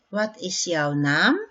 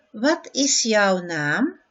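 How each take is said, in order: First: "Wat is jouw naam?" at normal speed, stress on "naam"; everyday "Wat is jouw naam?"; natural repeat. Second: "Wat is jouw naam?" slowly, stress on "wat", rising; slow model question. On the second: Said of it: "slow model". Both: Shown as a demonstration.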